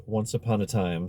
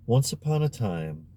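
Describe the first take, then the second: First: Said in the usual way. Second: Storyteller opening. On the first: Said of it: "sounded as if it were a rubber apple". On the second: A narrator's reading. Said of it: "just the way Giulietta would have begun".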